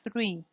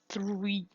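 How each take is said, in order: First: The R is a quick flapped tap. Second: The R is a smooth gliding approximant. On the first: The speaker calls it right. "the flap R occurs is after the th sound" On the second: The speaker calls it wrong. "You do not say three"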